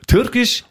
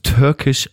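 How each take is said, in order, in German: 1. Das Wort wird wie deutsch 'türkisch' ausgesprochen. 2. Das Wort wird wie englisch 'Turkish' ausgesprochen. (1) "türkisch in Deutsch geschrieben" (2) "Also an meiner Aussprache kann ich noch arbeiten"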